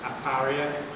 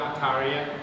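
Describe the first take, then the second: The two takes are said the same way.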